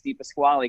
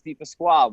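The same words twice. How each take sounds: First: The final e of the name is pronounced. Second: The final e of the name is silent. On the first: This is how most people say the name. The speaker calls it wrong. "everyone says Di Pasquale because of the e at the end" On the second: This is how the name is meant to sound. The speaker calls it right. "it's supposed to be silent"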